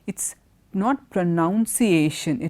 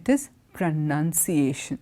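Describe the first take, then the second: First: The second syllable sounds like 'noun'. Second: The second syllable sounds like 'nun'. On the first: The speaker calls it wrong. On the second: The speaker calls it right. "Noun alla, none, pronunciation"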